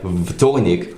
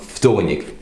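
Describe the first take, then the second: First: The word begins with a voiced v sound. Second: The word begins with a voiceless f sound. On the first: The speaker calls it wrong. "that is written like vtornik" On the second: The speaker calls it right. "will become vtornik because v becomes f"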